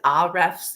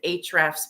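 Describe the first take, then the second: First: The name begins with an 'ah' vowel sound. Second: The name begins directly with an H sound. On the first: "I always pronounce it Ahrefs in my head" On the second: "the narrator pronounced it Hrefs, but that doesn't account for the A"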